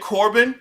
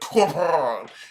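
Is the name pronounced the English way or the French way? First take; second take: English; French. First: The name is said with an English pronunciation. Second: The name is said with a French pronunciation. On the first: "I'm pronouncing it in English" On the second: "in French, it's Corbin"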